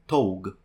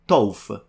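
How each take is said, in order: First: The word ends with a hard G sound. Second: The word ends with an F sound. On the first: "if I were to pronounce it the Italian way" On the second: "the G is pronounced like an F"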